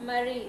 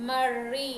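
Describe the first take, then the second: First: Said in the usual way. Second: మర్రి with a long, doubled r. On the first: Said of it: "రావత్తు లేకుండా పలికినప్పుడు". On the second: Shown as a demonstration. Teacher shows pupils the added ra-vattu, doubled r in మర్రి. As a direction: hold the r in మర్రి. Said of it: "రావత్తిస్తున్నాను".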